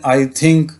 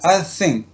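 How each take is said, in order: First: The th in think is a hard t-h. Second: The th in think sounds s-like. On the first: This is how local speakers say it. "जैसे हम कहते हैं" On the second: This is how native speakers say it. "वो से की sound देता है"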